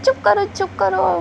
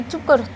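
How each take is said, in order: First: Higher, hurried shushing; panicked shush to a crying kid; urgent hush. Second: Said in the usual way. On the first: Acted. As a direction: hush him fast before the parents hear. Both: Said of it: "वाम जी कहता है".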